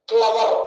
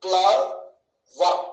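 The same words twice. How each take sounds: First: Said in the usual way. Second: "క్లవర్" in two slow, separate beats, cle, ver; split into syllables. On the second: Shown as a demonstration. Teacher asking how we say it, "క్లవర్" broken in two. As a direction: say "క్లవర్" with a long gap after cle. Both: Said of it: "ఎలా పలుకుతున్నాము".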